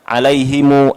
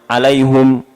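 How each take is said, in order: First: The word ends with an added u after m. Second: The word ends with hum instead of him. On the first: "ada yang mensilahkan" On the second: "ada yang mendhamahkan"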